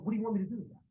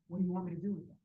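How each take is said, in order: First: It sounds strongly irritated and exaggerated. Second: It sounds calmer, only mildly irritated.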